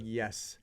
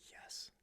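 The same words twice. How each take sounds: First: A brighter, fuller yes; retold happy yes; excited yes. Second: A soft, half-breathed yes; barely voiced yes of disbelief; stunned quiet yes. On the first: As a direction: let the joy land on it. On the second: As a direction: say it hushed, still taking it in. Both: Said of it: "I was so excited".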